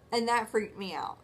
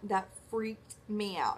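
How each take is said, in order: First: Said in the usual way. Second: "That freaked me out" said slower, each word weighted; slow emphatic repeat. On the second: Shown as a demonstration. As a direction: lean on it, drawn out.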